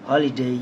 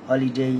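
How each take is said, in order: The two takes are said the same way.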